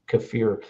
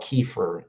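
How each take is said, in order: First: It is said the Eastern European way. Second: It is said the usual American way. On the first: "is the proper pronunciation from Eastern Europe" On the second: "we call it kefir in America"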